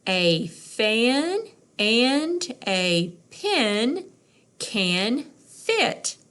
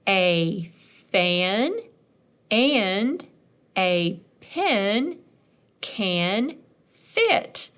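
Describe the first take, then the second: First: More fluent. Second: Each word read slowly on its own. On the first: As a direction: read it as one smooth phrase. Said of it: "let's try to do it more fluent". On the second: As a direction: sound out each word, pausing between. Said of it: "Let's try it". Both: Shown as a demonstration.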